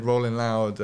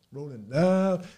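First: Said in the usual way. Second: Drawn-out, slow festival shout-out; mock hype call. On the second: Festival name repeated as hype.

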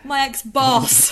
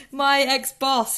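First: Higher, louder, slow emphatic correction; correcting herself. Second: Higher, louder, slow deliberate correction; firm correction. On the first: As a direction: stress the correction firmly. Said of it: "I was gonna say husband". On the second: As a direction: set the record straight. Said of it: "My lord, no". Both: Real, not acted.

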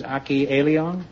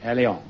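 First: Aki Eliong with Eliong said ee-lee-ong; wrong name. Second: Aleong said ah-lee-ong after correction; Aleong, repeating the corrected ah-lee-ong; corrected name. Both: Shown as a demonstration. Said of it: "Aki Aleong".

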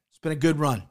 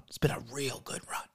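First: Said in the usual way. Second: Breathy whispered repeat. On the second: Acted. Whispering a mock farewell to FanDuel. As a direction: drop to a whisper for the mock-tender goodbye.

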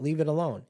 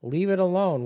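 First: Raised and higher; impatient order. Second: Much higher and louder, near shouting; exasperated yell. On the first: Manipulator shutting down the complainer, impatient. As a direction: tell them to drop it. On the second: Manipulator fed up with the complainer, shouting. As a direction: really yell it to end the topic. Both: Retold or imitated. Escalating dismissive repeat.

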